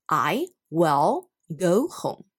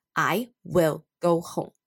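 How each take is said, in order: First: "will" ending with tongue touching behind upper teeth; correct L sound. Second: Mock student saying "will" with a dull, unfinished L; imitating student's mistake. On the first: Teacher modelling the correct "will" for students. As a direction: finish the L in "will" cleanly. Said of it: "所以正确的念法应该是". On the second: Teacher imitating a student's mispronounced "will". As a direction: copy the learner's error on "will". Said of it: "他可能会念成". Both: Shown as a demonstration.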